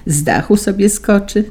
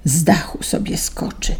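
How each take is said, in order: First: Said in the usual way. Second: Softer, breathy annoyed whisper; irritated whisper. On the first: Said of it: "zasapał". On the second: A narrator's reading. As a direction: hiss it, clearly irritated. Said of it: "zasapał wyraźnie poirytowany". (zirytowany szept, ciszej)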